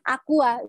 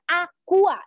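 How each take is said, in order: First: The word is said indistinctly and weakly. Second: The word is said clearly and loudly. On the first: The speaker calls it wrong. "dia Aqua nggak jelas kan" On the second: The speaker calls it right. "itu lebih menekankan pada produknya"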